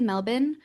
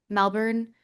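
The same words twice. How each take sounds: First: It is said with an Australian accent. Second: It is said with an American accent. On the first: "it feels like I'm being performative" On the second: "which is how I say it with an American accent"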